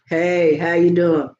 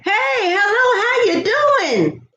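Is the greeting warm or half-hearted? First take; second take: half-hearted; warm. First: It is said flatly, without real feeling. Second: It is said warmly, with a smile.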